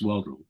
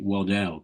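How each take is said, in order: First: The name is said with first-syllable stress. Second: The name is said with second-syllable stress. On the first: This is how the man's name really goes. The speaker calls it right. "but it was Waddle" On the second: Other people say the name this way. The speaker calls it wrong. "some people pronounced it Waddell"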